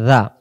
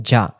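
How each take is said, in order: First: "জা" as a voiced th; tongue tip out softly for "জা"; soft dhal. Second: "জা" with a hard j; jim. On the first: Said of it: "জাল জবর". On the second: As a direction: say "জা" like English j. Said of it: "জিম জবর". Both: Shown as a demonstration.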